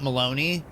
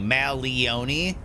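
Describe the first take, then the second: First: The name rhymes with baloney. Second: The name does not rhyme with baloney.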